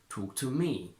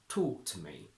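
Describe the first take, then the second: First: There is a strong stress on me. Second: The voice goes up and down on talk. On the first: "with a strong stress on me" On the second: "go up and down on talk and then flat on to me"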